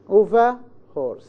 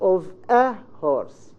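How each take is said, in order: First: The 'a' is a weak schwa linked smoothly. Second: A glottal stop comes before the 'a'. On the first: The speaker calls it right. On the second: The speaker calls it wrong. "not of a horse. Because we don't have the Hamza in English"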